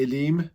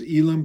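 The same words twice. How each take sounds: First: Elim said the Hebrew way, weight on the last syllable; Hebrew pronunciation of Elim. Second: Elim said the non-Hebrew way, as some people do; common pronunciation of Elim. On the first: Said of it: "in Hebrew it would be Elim". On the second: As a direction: say Elim in the anglicised way. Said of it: "some people pronounce it as Elim". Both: Shown as a demonstration.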